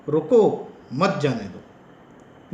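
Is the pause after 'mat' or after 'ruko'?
after ruko. The pause falls after the word 'ruko'. Stop him; do not let him go. "उसको रोक के रखना, उसको जाना मत देना।"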